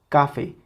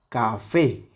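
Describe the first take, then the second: First: The stress is on the first syllable. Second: The stress is on the last syllable. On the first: "Si le quitamos esa intensidad a la última sílaba, se escucharía café" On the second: "Es la que suena más fuerte"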